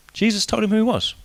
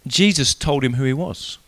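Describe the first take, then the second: First: "he" lifted and leaned on, said softly; quiet line that lands on "he"; stress on he. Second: Jesus leaned on, the rest falling quietly; "Jesus" leads, the rest said softly; stress on Jesus. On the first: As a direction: point the line at "he". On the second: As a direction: start with a low, weighty "Jesus". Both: Shown as a demonstration. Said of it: "repeated with shifted stress".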